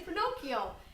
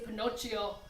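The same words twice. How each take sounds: First: The middle consonant is a hard K sound. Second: The middle consonant is a ch sound. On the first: The speaker calls it right. "you say" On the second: The speaker calls it wrong. "You don't say"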